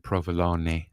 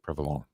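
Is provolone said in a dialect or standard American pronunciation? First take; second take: standard; dialect. First: It has a standard American pronunciation. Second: It has an Italian-American dialect pronunciation. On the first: "we don't say provolone" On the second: "we say provolone"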